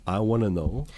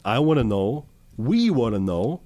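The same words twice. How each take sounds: First: Said in the usual way. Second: Louder, insistent, slowing down; emphatic. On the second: Real, not acted. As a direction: push the question harder.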